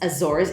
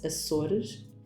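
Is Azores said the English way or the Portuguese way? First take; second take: English; Portuguese. First: Azores is said with an English pronunciation. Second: Azores is said with a Portuguese pronunciation. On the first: This is how outsiders say it. "For the rest of the world, it's Azores" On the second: This is how locals say it. "For us, it's Azores"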